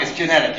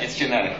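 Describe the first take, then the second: First: Said in the usual way. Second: Resigned mutter. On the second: Shown as a demonstration.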